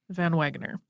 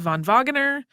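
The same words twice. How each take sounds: First: The name has an English pronunciation. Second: The name has a European pronunciation. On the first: "we're going with" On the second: "in the European way of"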